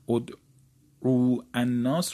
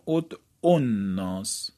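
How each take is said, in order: First: The long vowel before the article is kept. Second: The long vowel before the article is dropped.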